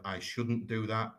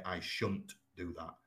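First: Said in the usual way. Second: Yorkshire shan't. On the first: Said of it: "So instead of". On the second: Shown as a demonstration. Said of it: "you would say".

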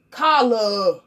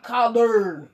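First: "Collard" said as "colla", no final d sound; "Collard" ending open on an r-less vowel; dropped final d. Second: "collard" with a clear final r and d, slow; a careful "collard" with every consonant. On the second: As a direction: sound out "collard" fully, ending on the d. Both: Shown as a demonstration. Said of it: "Not collard".

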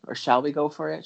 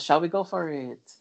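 First: Said in the usual way. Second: Lightly imitating a singer's French Canadian accent; a hint of French Canadian accent. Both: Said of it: "But in her French Canadian accent".

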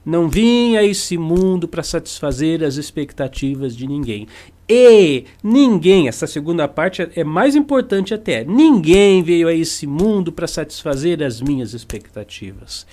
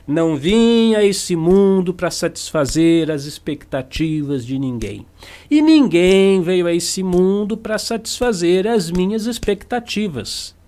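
First: Steady repeated dictation pace; repeating the motto for note-taking; dictated for notes. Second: Slow, weighty saying of a motto; a teacher's slow dictated maxim; slow emphatic maxim. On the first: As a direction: say it again for them to write down. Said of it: "Vou repetir pra você anotar". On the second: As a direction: pronounce the motto deliberately. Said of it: "você já tá cansado de ouvir". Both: Shown as a demonstration.

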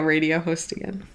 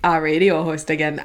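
First: Slight Midwestern accent slipping out. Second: Put-on echoing own slight Midwestern accent, lower; mock your own Midwestern slip a little. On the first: Real, not acted. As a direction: let a little Midwestern accent creep in. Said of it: "I sounded so Midwestern". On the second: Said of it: "I sounded so Midwestern when I said that".

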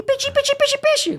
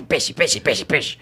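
First: Very high, squeaky little shark voice; cute cartoon voice. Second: Aggressive monster shark voice, far from cute; macabre creature voice. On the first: Dubber demos his softened version of a cartoon shark, cute and high. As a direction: chirp it like an adorable baby shark. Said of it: "Botei bem uma coisa mais fofinha". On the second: Dubber demos the cartoon shark's harsher original voice, macabre and aggressive. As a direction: make the little shark sound menacing. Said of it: "Ficou macabro". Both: Shown as a demonstration.

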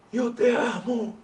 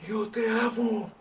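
First: Words spoken on the in-breath; talking while inhaling. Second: Said in the usual way. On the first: Shown as a demonstration. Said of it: "y ahí respiré, inhalé". (hablando mientras inhala) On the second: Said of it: "yo puedo decirte".

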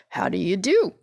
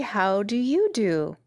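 First: Lightly husky scarecrow greeting. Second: Slow, drawn-out courteous question; mildly prim girl returning a greeting; polite. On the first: Scarecrow returns the girl's attention with a greeting, lightly husky. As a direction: straw man's greeting, question lifting at the end. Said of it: "in a rather husky voice". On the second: Dorothy asks the Scarecrow in return, politely. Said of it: "replied Dorothy politely". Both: Acted.

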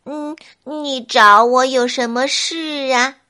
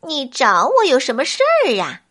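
First: Leisurely, drawn-out snail voice; slow and unhurried. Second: Quick, impatient flea voice. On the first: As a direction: take your time with each word. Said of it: "小蜗牛慢条斯理儿地说". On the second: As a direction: rush it, a bit annoyed. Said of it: "跳蚤有些不耐烦地说". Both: A narrator's reading.

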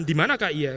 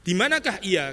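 First: A light touch of unease on "Di manakah ia?"; insecure, threatened. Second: Said in the usual way. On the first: Shown as a demonstration. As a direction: ask "Di manakah ia?" as if feeling threatened. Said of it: "Insecure kali, saya, terancam". (nada "Di manakah ia?" yang sedikit tidak aman dan terancam) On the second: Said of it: "di sini intonasinya kan bisa macam-macam".

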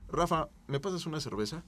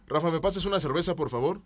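First: Said in the usual way. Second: Courteous request with please; polite ask. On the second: Shown as a demonstration. Asking Rafa for a beer, politely. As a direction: ask nicely, rising. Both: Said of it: "no es lo mismo que".

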